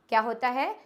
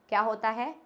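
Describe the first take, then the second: Both takes have the same delivery.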